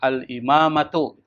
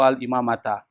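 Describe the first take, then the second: First: The word ends in an u vowel. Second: The word ends in an a vowel. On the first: The speaker calls it right. "biasanya dibaca itu dhammah" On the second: The speaker calls it wrong. "nggak boleh dibaca"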